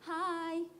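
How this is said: The greeting is said in a soft, weak manner. The writer is being gentle and mild. The speaker calls it wrong. "Paulus itu tidak sedang ngomong dalam bahasa yang lembek. Dia nggak bilang gini"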